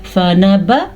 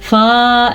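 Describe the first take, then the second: First: The first vowel is kept short. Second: The first vowel is stretched out long. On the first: The speaker calls it right. "आपने पढ़ना है फ़न ब" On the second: The speaker calls it wrong. "फ़ा ऐसे पढ़ना गलत है"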